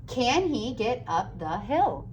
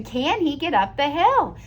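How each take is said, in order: First: Said in the usual way. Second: Can he get up the hill asked brightly as a real question; question tune. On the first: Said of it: "Is it asking a question?". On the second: Shown as a demonstration. Teacher showing the class it asks a question, brighter. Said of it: "it's asking the question".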